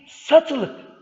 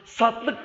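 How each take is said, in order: First: The middle vowel is kept, giving three syllables. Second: The middle vowel is dropped, giving two syllables. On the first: The speaker calls it right. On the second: The speaker calls it wrong.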